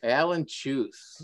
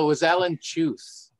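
First: "Alan Chuth" drawn out slowly; slow clarification. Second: ALAN pitched high and loud; emphatic correction. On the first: Guest repeating the name for the host, slow clarification. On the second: Guest setting host straight on who said it, emphatic correction. Corrects the host's guess at name. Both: Real, not acted.

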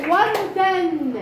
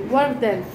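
First: وردن stretched very slowly, syllable by syllable; slow model reading. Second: Said in the usual way. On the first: Shown as a demonstration. Teacher modelling وردن for the class, very slowly. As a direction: draw out وردن slowly so pupils can follow. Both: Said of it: "زين،".

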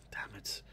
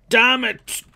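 First: Whispered curse. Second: Loud high curse; frustrated shout. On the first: Whispered frustration. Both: Real, not acted.

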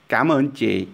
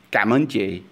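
First: "Cảm" on a clear rising tone, higher pitch; Vietnamese tones. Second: "Cảm ơn chị" with "Cảm" on the rising tone; Vietnamese tones. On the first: Teacher shows thanking the shop clerk, "Cảm" rising. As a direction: lift "Cảm" up, then "ơn chị" falls. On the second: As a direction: lift "Cảm" with the dấu sắc rising tone. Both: Shown as a demonstration. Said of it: "we're using the rising tone, dấu sắc for cảm".

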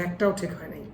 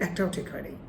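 Both takes have the same delivery.

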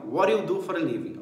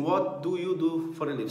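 First: "What do you" run together as "whaddaya"; connected, reduced "What do you do for a living"; linked spoken form. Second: "What do you" with each word pronounced separately; careful "What do you do for a living"; full, unlinked form. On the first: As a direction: blend "What do you" with a soft flap for t and d. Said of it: "Você vê assim, ó". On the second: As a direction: keep the t of "What" and the d of "do". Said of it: "Você nunca vê assim". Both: Shown as a demonstration.

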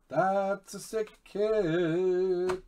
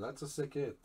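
First: High, loud and slowly drawn out; excited savoring. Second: Said in the usual way. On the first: Real, not acted. Breaker admiring Doug's sick hit, drawn-out excitement. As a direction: stretch out SICK and HIT loudly, with relish.

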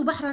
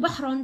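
First: بحرا said "bahran", ending in -an; tanween fath ending. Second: بحر said "bahrun", ending in -un; tanween damm ending. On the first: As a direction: sound a final "-an" on بحرا. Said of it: "تنوين فتح". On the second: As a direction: sound a final "-un" on بحر. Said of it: "تنوين ضم". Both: Shown as a demonstration.

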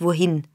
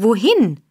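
First: Said in the usual way. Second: Louder, brusque demand; gruff shout. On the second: A narrator's reading. Burglar demands the girl's destination, gruffly shouting. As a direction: fire it back as a gruff question. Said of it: "schrie Sykes barsch".

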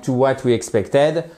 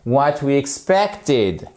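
First: "expected" ending in "-ED" as in "bed"; mispronunciation to avoid. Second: Slow "expected" ending in "-id"; correct short-I ending. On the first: Teacher shows learners what to avoid, wrong final vowel. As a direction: finish "expected" on a full French "ède". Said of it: "pour éviter de dire, par exemple". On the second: Teacher models for learners to repeat, slow careful pronunciation. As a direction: stress PEC, finish "expected" with short I. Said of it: "c'est un I court". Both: Shown as a demonstration.

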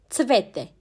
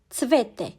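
No difference in how they are said.

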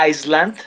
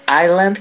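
First: Iceland with a clear S, "ais-land"; teacher showing the mistake; contrast pronunciation. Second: Island with a silent S, "ajland"; warning the class about island; careful pronunciation. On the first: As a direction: say Iceland to show the wrong version. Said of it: "si ustedes dicen". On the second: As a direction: sound out island with no S. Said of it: "Tengan mucho cuidado con esta palabra". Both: Shown as a demonstration.

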